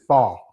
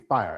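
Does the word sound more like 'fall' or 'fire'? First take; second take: fall; fire. First: The word sounds close to 'fall'. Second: The word keeps a clear 'fire' vowel and ending. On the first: This is how other people around here say it. "somebody else around here says fall" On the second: This is how the speaker says it. "when I say fire, I say fire"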